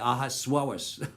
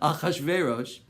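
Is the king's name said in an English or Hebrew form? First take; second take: English; Hebrew. First: The name is said in its anglicized form. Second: The name is said in its Hebrew form. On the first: The speaker calls it wrong. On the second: The speaker calls it right.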